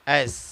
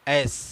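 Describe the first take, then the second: The two takes are said the same way.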